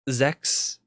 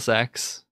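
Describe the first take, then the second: First: The name begins with a z sound. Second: The name begins with an s sound. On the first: The speaker calls it right. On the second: The speaker calls it wrong.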